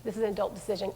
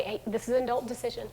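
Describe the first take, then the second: First: Soft, lower, settled; firm calm parent. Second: Softer, matter-of-fact; firm calm parent. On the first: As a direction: close the topic quietly. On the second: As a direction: state it calmly and firmly. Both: Shown as a demonstration. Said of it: "what are those things that we can just say".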